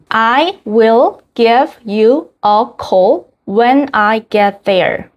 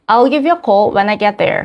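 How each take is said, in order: First: "I will" is said as two full words. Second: "I will" is shortened into one contracted word.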